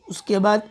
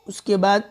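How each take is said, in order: Both takes have the same delivery.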